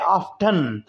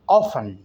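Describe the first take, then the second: First: The t sound is pronounced. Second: The t sound is silent. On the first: This is the American usage. "American में ऑफन में टी बोला जाता है" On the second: This is the British usage. "ऑफन में टी silent है।"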